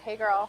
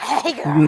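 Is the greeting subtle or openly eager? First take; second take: subtle; openly eager. First: It is said in a casual, restrained way. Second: It is said in an overtly eager, thirsty way.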